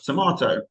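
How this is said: It is said in a southern English accent. "I would pronounce the word tomato as tomato"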